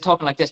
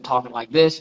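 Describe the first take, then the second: First: It is said in an Irish accent. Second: It is said in the speaker's usual plain accent. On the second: "I went from talking like this"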